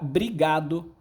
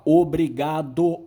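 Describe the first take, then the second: First: The word is said without its initial o sound. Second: The word is said in full with initial o. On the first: "Aquela queda do O é uma férise" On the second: "É raro alguém falar obrigado"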